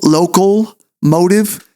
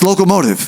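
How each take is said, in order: First: The first part sounds like the word 'local'. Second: The first part sounds like 'loco'. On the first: The speaker calls it wrong. "I always say it wrong" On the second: The speaker calls it right. "it's locomotive"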